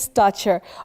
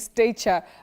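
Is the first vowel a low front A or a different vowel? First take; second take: low front; different. First: The first vowel is a low front A. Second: The first vowel is not a low front A. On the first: The speaker calls it right. "That A takes the low front sound A" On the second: The speaker calls it wrong. "I thought it's actually stature"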